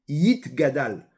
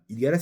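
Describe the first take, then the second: First: It starts with a 'y' sound and 't'. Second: It starts with a plain vowel and 'd'. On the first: The speaker calls it right. "C'est Yitgadal" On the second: The speaker calls it wrong. "beaucoup de gens font l'erreur de dire Idgadal"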